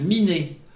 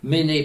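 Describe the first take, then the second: First: The first vowel is i, not é. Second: The vowel is é with no final consonant. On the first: This is the form used in central Brittany. "dans le centre-Bretagne, Miné" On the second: This is the form used in most other places. "Méné partout ailleurs"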